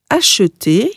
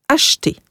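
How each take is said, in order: First: The middle e is pronounced as a vowel. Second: The middle e is dropped entirely. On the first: "einmal mit ausgesprochenem E als Ö" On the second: "und einmal ohne"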